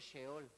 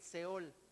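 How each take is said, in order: First: The word begins with an sh sound. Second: The word begins with a plain s sound. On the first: The speaker calls it wrong. "¿Por qué no digo Sheol? Pues porque la H es muda" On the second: The speaker calls it right.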